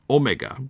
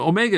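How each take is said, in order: First: The stress is on the first syllable. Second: The stress is on the second syllable. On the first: This is how a British speaker said it. "he accented the first syllable" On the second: This is the familiar everyday pronunciation. "So Omega is what I would say"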